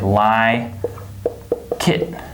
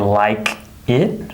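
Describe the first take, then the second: First: The final K links into the next word. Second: The two words are said separately. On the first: The speaker calls it right. "we say like it" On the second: The speaker calls it wrong. "we don't say like it"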